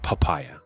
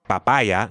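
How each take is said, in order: First: The p has a puff of air. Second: The p has no puff of air. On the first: It sounds like an English speaker. The speaker calls it wrong. "not papaya" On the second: It sounds like a native speaker. The speaker calls it right. "So it's papaya"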